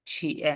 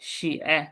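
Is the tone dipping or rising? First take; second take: dipping; dipping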